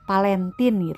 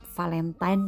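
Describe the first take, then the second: First: The word begins with a P sound. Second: The word begins with an F or V sound.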